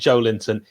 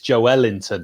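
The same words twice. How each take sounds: First: The stress is not on the middle syllable. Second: The stress is on the middle syllable. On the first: The speaker calls it wrong. "they say it's not Joelinton" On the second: The speaker calls it right. "the emphasis is in the middle of the word"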